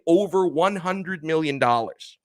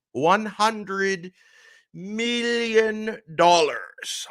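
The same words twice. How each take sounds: First: Said in the usual way. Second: "One hundred million dollars" drawn out very slowly and pitched higher, each word hit hard; slow emphatic repeat. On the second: Shown as a demonstration. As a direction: savour "million dollars", stretching it out in disbelief.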